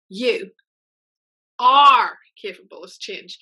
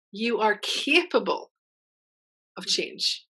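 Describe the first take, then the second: First: "are" punched louder and slower; stress on ARE. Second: Said in the usual way. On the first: Shown as a demonstration. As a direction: lean hard on "are" in "You are capable of change". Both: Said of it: "Put the emphasis in that sentence where you want it".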